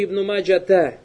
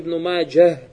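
First: The name ends with a t sound and vowel. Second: The name ends with an h sound. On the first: The speaker calls it wrong. "Это неправильно, то есть там арбуты там нет" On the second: The speaker calls it right. "вассавапан тукалю"

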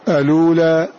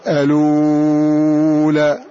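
First: The vowel after the hamza is held briefly. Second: The vowel after the hamza is held very long. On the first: "القصر" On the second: "الإشباع"

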